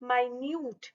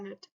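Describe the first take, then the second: First: The word sounds like 'my-newt'. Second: The word sounds like 'minnit'. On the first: It means very small. "लेकिन इसको बोला जाएगा माइन्यूट" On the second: It means a unit of time. "तो एक हो गया minute"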